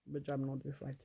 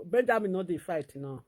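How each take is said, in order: First: Much softer, lower repeat of the same line; quiet echo. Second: Said in the usual way. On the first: Real, not acted. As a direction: drop it to a murmur to yourself. Defending brother, then echo.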